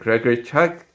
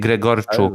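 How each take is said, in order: First: The ending sounds like the name Chuck. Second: The ending does not sound like Chuck. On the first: The speaker calls it wrong. "Chuck Chuck Norris? No" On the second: The speaker calls it right. "it should be"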